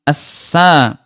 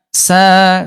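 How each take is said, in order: First: The air hisses out before the vowel starts. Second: The air comes out together with the vowel. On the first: The speaker calls it wrong. "udaranya jangan sampai eh, apa keluar duluan ya, misalkan gini" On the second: The speaker calls it right. "Udaranya ya Bunda berbarengan ketika lagi mengucapkan"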